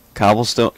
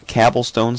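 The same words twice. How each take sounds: First: Said in the usual way. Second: "cobblestone" corrected to "cabblestone"; "cobblestone" with the A of cab; joke mispronunciation. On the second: Shown as a demonstration. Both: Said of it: "That's how you say it".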